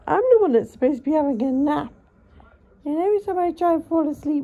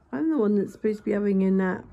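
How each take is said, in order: First: Higher, louder complaint; mock exasperated outburst. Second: Said in the usual way. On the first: Real, not acted. Owner complaining to the cat that she wants a nap, loud mock exasperation. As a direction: vent at the cat in mock outrage. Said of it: "said again louder". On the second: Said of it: "repeated louder".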